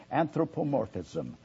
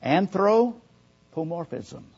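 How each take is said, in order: First: Said in the usual way. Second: Anthropomorphism said slowly, every syllable clear; careful pronunciation. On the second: Shown as a demonstration. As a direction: spell out Anthropomorphism in sound, syllable by syllable, slow. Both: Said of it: "the word is pronounced".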